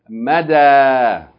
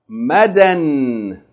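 First: The word ends with a long a vowel. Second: The word ends with an n sound. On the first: Reading stops at the word. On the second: Reading continues after the word.

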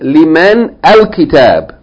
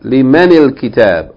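First: The words are joined with an 'al' sound. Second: The words are joined with an 'il' sound. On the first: The speaker calls it wrong. "don't say liman al-kitab" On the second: The speaker calls it right. "you add kasra to men and you say limanil kitab"

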